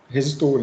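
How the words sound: It is pronounced the Portuguese way. The speaker calls it right. "a gente fala resistor"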